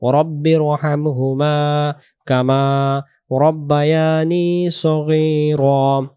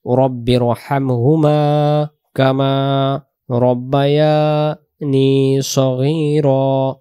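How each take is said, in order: First: রব্বায়ানি stretched, then a pause before সগীরা; slow correct recitation. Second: রব্বায়ানি run straight into সগীরা with no stretch; the slipped version; wrong joining. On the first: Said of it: "টান দেব, তারপরে সগীরা". (টেনে তারপর সগীরা) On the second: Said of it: "এইভাবে বলবো না". (টান ছাড়া ভুল) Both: Shown as a demonstration.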